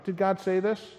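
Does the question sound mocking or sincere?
sincere. It sounds like a plain, sincere question. He is honestly asking for information. The speaker calls it wrong. "he's not just asking an honest question"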